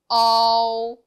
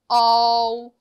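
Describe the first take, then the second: Both takes have the same delivery.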